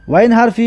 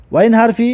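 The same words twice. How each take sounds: The two takes are said the same way.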